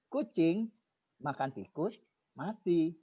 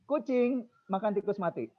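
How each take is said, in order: First: The phrase breaks after tikus, before mati. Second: The phrase breaks after makan, before tikus. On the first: The cat is the one that died. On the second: The rat is the one that died.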